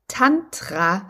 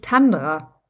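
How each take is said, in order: First: The second consonant is a t sound. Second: The second consonant is a d sound. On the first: The speaker calls it right. "dass das Tantra heißt" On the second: The speaker calls it wrong. "und nicht Tandra"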